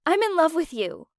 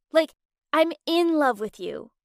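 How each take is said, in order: First: Said in the usual way. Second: IN punched for emphasis, pitched up; insistent confession, leaning on "in"; stress on IN. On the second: A narrator's reading. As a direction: hit the word "in" to clarify. Repeats confession to be understood.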